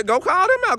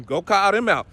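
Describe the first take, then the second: First: Much higher, mocking the advice; thin mocking falsetto. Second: Said in the usual way. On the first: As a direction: squeak it out in a mocking high voice. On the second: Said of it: "repeated, then mocked high".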